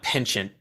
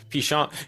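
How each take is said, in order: First: It has a plain English pronunciation. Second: It has a fancy, French-sounding pronunciation. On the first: The speaker calls it right. "it's pronounced penchant" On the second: The speaker calls it wrong. "Why are you trying to make it sound fancier than it is?"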